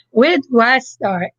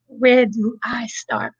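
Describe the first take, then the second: First: Said in the usual way. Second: Breathy whisper to herself. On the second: Real, not acted. Starting her testimony, she whispers to herself. Repeats opening line as whisper.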